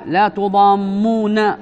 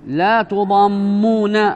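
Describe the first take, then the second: Both takes have the same delivery.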